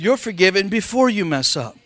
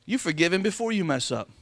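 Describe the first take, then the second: First: "You're forgiven before you mess up" said louder, with force; louder repeat. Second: Said in the usual way. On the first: Shown as a demonstration. Pastor repeating the line to get amens, louder. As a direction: proclaim it for the shouting. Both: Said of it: "I said".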